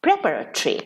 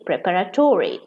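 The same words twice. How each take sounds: First: Preparatory clipped to pre-PAR-a-tree; British pronunciation. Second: Preparatory ending in a full -tory, pre-PAR-a-tory; American pronunciation. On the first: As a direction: swallow the o in preparatory, British style. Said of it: "In British English". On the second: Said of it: "they say". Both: Shown as a demonstration.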